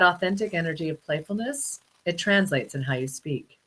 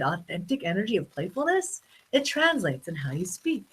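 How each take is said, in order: First: It is said flatly, without playful energy. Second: It is said with lively, playful energy. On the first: The speaker calls it wrong. "imagine if I didn't say it playful" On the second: The speaker calls it right. "Like right now, I said"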